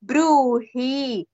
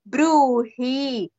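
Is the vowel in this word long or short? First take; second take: long; long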